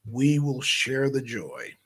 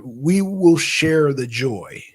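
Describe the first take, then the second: First: A quieter, settled repeat of the line; softer echo. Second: Each word drawn out slowly and deliberately; slow emphatic declaration. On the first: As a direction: repeat "we will share the joy" softer, like an afterthought. Echoing his own line more softly. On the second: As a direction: say "we will share the joy" slowly, weighing every word. Announcing to listeners in every state. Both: Shown as a demonstration.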